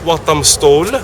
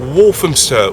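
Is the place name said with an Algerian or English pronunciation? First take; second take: Algerian; English. First: It is said with an Algerian Arabic pronunciation. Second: It is said with an English pronunciation. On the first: The speaker calls it wrong. "ما تقولوش وطمستول" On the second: The speaker calls it right. "قولوا Walthamstow"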